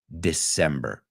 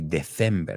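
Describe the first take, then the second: First: The C is pronounced the English way. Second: The C is pronounced the Spanish way. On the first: The speaker calls it right. "And it's not. It's December" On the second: The speaker calls it wrong. "pronounce that C a la española"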